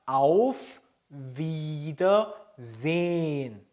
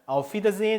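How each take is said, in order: First: It is said slowly and carefully. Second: It is said quickly and run together.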